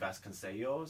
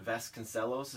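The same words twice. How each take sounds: First: The L is sounded like a Y. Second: The L is sounded as a plain L. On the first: This is how Spanish spelling rules would have it. "in Spanish, the two L's are like a Y" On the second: This is how the family says the name. "is how she says her family says it"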